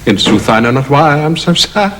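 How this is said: It is spoken in a humorous tone.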